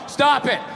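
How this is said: It is read out flatly, like a court reading.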